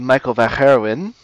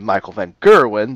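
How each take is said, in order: First: Gerwen starts with a throaty Dutch sound. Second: Gerwen starts with a plain English hard g. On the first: It is said the way Dutch people say it. The speaker calls it right. "the correct way to say it" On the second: It is said so English listeners understand. The speaker calls it wrong. "the incorrect way to say it"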